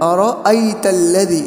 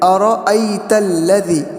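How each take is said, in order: The two takes are said the same way.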